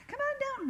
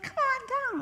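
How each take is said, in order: First: Very high beckoning call, falling at the end; imitated calling out. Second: High, sing-out beckoning call; imitated calling out. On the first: Girls inviting her down the little hill, imitated high call. Same call repeated after aside. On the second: Girls calling her down to the yard sale, imitated high call.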